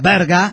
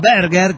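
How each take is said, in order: First: The word ends with an open 'a' sound. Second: The word ends with a clear 'er' sound.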